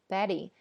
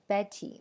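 First: The middle t sounds like a soft d. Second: The middle t is a clear t sound. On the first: "那么现在却变成了Betty" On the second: "你以前背的是Betty"

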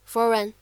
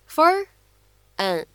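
First: The two words are linked into one. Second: The two words are said separately.

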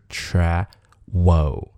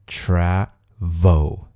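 First: The middle consonant is a w sound. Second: The middle consonant is a v sound. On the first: The speaker calls it wrong. "而不是travel，那是不对的" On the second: The speaker calls it right. "就是travel"

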